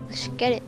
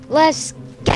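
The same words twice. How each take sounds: First: It sounds flat and unenthusiastic. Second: It sounds lively and enthusiastic.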